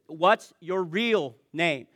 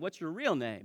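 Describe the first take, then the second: First: It is said with a raised voice. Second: It is said calmly, with a smile.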